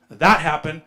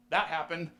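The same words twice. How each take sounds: First: Repeated much louder; loud insistent repeat; emphatic. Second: Said in the usual way. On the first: Shown as a demonstration. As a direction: hammer it home loudly.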